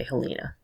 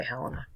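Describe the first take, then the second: First: Helena as heh-LEE-nah; alternative pronunciation. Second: Helena as HEL-en-ah; local pronunciation. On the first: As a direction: stress a long EE in the middle of "Helena". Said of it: "Some people might say Helena". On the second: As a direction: stress the first syllable of "Helena", short middle vowel. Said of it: "I think they say Helena". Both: Shown as a demonstration.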